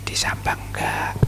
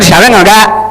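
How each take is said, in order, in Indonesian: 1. Kata-katanya dibisikkan pelan. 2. Kata-katanya diserukan dengan suara keras. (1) "Jadi cukup bisik-bisik"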